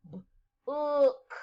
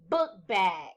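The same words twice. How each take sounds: First: "B-ook" split into its sounds, B then ook; segmented syllable. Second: Said in the usual way. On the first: Shown as a demonstration. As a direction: tap out each sound of "B-ook". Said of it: "Segment the first syllable". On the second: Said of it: "segment the following words".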